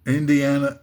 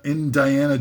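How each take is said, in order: First: Said in the usual way. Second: "Indiana" said as in-Diana, with "die" in the middle; punning pronunciation. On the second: Shown as a demonstration. Comic fixing his pun, "Indiana" pronounced in-die-ANN-a. Re-says name as dirty pun.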